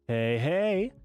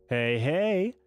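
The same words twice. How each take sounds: Both takes have the same delivery.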